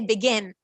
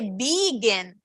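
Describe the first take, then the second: First: The stress is on the second syllable. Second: The stress is on the first syllable. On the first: The speaker calls it right. "We say begin" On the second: The speaker calls it wrong. "We don't say begin"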